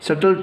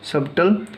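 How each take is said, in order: First: The b sound is silent in the middle. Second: The b sound is pronounced in the middle.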